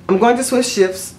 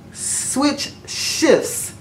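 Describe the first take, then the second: First: Said in the usual way. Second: Very slow, deliberate "switch shifts"; careful enunciation. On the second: Real, not acted. Vlogger retrying a tongue-tripping phrase, careful enunciation. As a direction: separate "switch" and "shifts", drawing out each word.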